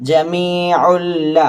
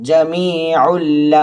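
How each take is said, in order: No difference in how they are said.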